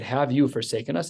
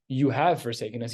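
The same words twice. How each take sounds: First: "Have you forsaken us?" with the tune rising on you; rhetorical question. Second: "You have forsaken us." said as a flat statement, falling at the end. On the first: Teacher showing David's version as a question rising at the end. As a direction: ask it as an open rhetorical question. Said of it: "He said". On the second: Teacher reading the wrong version as a flat, falling statement. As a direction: state it as a closed accusation, no question in it. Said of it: "He didn't say". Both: Shown as a demonstration.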